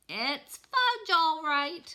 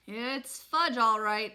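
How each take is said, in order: First: Put-on a high, loud toddler copying his big brother; high toddler echo. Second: Said in the usual way. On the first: Little brother echoing Peter to their mom in a high toddler voice. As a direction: parrot it back like an eager small child. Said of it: "my brother repeated". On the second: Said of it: "I said".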